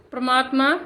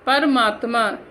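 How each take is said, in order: First: परमात्मा said prəmatma with the first vowel dropped, rising; wrong pronunciation. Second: परमात्मा said pər-maatma with the first vowel kept, falling; correct pronunciation. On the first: Teacher shows pupils the wrong clipped form. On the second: Teacher gives pupils the correct full form. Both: Shown as a demonstration. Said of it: "wrong then right pairs".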